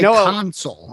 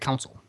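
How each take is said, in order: First: The word is said with a long 'sole' ending. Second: The word is said with a short 'sel' ending. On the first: This is how everybody else says it. "I don't say I console" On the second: This is the Chicago way of saying it. "I say council"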